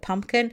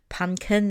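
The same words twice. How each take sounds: First: The word is said with its usual sounds. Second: The word is said with its sounds mixed up. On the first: The speaker calls it right. "instead of pumpkin" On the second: The speaker calls it wrong. "or they say pumpkin"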